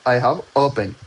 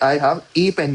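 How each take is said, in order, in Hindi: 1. शब्द 'a' को 'uh' की तरह बोला जाता है। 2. शब्द 'a' को 'ay' की तरह बोला जाता है। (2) "आई हैव ए पेन नहीं होगा"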